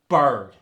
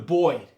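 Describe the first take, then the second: First: The vowel keeps a hard R sound. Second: The vowel sounds like 'oi' without R. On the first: "you just keep the hard R in the word" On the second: "You get the E R turning to the oi sound"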